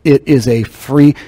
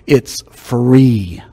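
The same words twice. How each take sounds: First: Said in the usual way. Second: Drawn out, each word slow; said really slow. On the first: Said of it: "let me say this really slow". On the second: Shown as a demonstration. Preacher slowing down for viewers online, slow. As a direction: stretch It's free out slowly. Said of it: "let me say this really slow for you".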